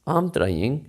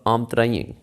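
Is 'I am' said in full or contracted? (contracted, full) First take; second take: contracted; contracted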